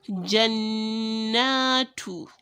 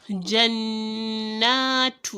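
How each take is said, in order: The two takes are said the same way.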